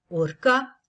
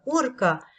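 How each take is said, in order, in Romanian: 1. Accentul cade pe a doua silabă. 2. Accentul cade pe prima silabă. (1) "cu accentul pe a doua silabă" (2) "cu accentul pe prima silabă"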